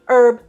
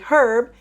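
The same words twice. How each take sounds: First: The word begins with no H sound. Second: The word begins with an audible H sound. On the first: "they say herb by dropping the H" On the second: "in Great Britain, they say herb"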